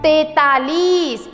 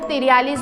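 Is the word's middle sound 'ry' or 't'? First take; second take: t; ry. First: The word is said as tai-taa-lees. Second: The word is said as tir-yaa-lees. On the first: The speaker calls it right. "इसे इस तरह से बोला जाना चाहिए" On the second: The speaker calls it wrong. "जबकि ये तिरयालीस नहीं है"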